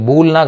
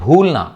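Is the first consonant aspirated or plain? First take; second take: plain; aspirated. First: The first consonant is a plain b. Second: The first consonant is an aspirated bh. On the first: The speaker calls it wrong. "కాదు" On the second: The speaker calls it right. "బీహెచ్"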